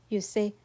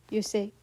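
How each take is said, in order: The two takes are said the same way.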